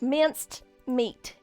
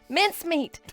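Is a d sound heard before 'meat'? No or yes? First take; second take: yes; no. First: A d sound comes before 'meat'. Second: No d sound comes before 'meat'. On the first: The speaker calls it wrong. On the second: The speaker calls it right.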